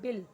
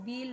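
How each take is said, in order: First: The vowel is short, like 'bill'. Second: The vowel is long, like 'beel'. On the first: The speaker calls it right. "बहुत short में इसको पढ़ना है" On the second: The speaker calls it wrong. "ऐसे आप नहीं पढ़ोगे"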